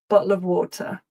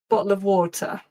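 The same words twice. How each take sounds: First: It is said in a natural, everyday accent. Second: It is said in a natural, everyday accent.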